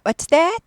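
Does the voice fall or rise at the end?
rise. The voice rises at the end. The speaker calls it wrong. "아니고"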